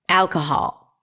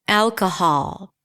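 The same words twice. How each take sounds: Both takes have the same delivery.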